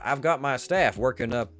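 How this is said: It is spoken with a Southern-leaning American accent.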